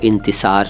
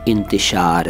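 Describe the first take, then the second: First: The middle consonant is a plain 's' sound. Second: The middle consonant is an 'sh' sound. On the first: The speaker calls it wrong. "इसको इंतिसार न कहें" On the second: The speaker calls it right. "इंतिशार है ये"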